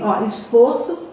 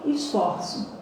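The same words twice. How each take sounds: First: "esforço" with a closed o, like "ô". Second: "esforço" with an open o, like "ó". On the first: Teacher showing the noun, "esforço" with a closed o. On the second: Teacher showing the verb, "esforço" with an open o. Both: Shown as a demonstration. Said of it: "es-, esforço, verbo".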